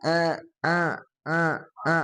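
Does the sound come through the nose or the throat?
nose. The vowel sound comes through the nose. The speaker calls it wrong. "a ini masuk hidung"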